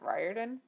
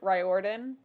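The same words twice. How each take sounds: First: The O in the middle is left silent. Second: The O in the middle is clearly sounded. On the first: The speaker calls it right. "and not" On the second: The speaker calls it wrong. "I used to pronounce it"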